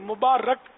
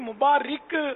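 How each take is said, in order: First: The vowel after the r is 'a'. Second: The vowel after the r is not 'a'. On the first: The speaker calls it right. "یہ مبارک را پر زبر ہے" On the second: The speaker calls it wrong. "یہ مبارک غلط العوام ہے"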